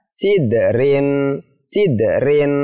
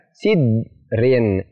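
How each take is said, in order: First: "sidrin" with d bounced, like si-de-rin; correct qalqalah bounce. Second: "sidrin" with d pressed and held, no bounce; wrongly pressed d. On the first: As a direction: let the d in "sidrin" spring into rin. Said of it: "Yang benar adalah". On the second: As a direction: stop on the d of "sidrin", then rin. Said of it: "Tidak boleh dibaca ... ditekan". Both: Shown as a demonstration.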